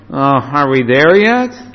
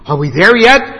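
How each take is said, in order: First: It sounds hesitant and reluctant. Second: It sounds eager and excited.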